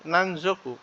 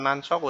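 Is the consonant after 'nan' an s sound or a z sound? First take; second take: z sound; s sound. First: The middle consonant is a voiced z sound. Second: The middle consonant is a voiceless s sound. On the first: The speaker calls it right. "tapi nanzoku ya" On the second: The speaker calls it wrong. "bukan nansoku"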